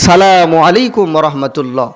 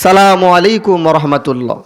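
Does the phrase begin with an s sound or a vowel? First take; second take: s sound; s sound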